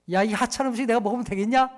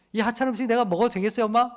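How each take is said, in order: First: Mock-rude scoff at the meal; rude husband at the table. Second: Quick, mock-polite child's question; child asking mom. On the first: Pastor mocks a husband scorning his wife's dinner, rude scoff. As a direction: scorn the wife's cooking, lightly. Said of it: "그때 여러분 어떻게 얘기하십니까". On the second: Pastor imitates a child asking his mother about dinner, fast mock-polite. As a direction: ask mom sweetly but cheekily. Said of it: "이렇게 얘기하는 사람 자식 있어요".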